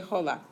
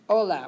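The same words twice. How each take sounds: First: The word starts with an audible H sound. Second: The word starts directly with the vowel sound. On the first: The speaker calls it wrong. "we don't say hola" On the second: The speaker calls it right. "H es invisible"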